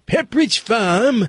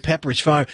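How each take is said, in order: First: Put-on drawn-out, higher old New England accent; Pepperidge Farm guy's accent. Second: Said in the usual way. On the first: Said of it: "that's the Boston thing". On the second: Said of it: "remember that guy used to do".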